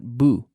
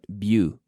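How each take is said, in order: First: The syllable has a plain 'oo' vowel. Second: The syllable has a 'y' glide before 'oo'. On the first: The speaker calls it wrong. "Not boo" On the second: The speaker calls it right. "but bu"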